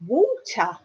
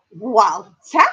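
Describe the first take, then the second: First: "Walter" with a round English aw, wawl-ter; teacher's correct pronunciation. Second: "Walter" with open a and rising end; loud, questioning "Walter", wahl-TAH; imitated pupil's pronunciation. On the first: Retold or imitated. Teacher checking the word with her pupil, English pronunciation. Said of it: "I went". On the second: Pupil trying to copy her English teacher, imitated mispronunciation. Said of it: "She went".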